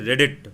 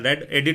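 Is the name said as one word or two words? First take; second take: one word; two words. First: It is said as one word, red-it. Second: It is split into two parts, red and edit. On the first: The speaker calls it right. "जबकि है रेडिट" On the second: The speaker calls it wrong. "मैं इसको कई बार सही से pronounce नहीं करता, मैं रेड एडिट बोल देता हूँ"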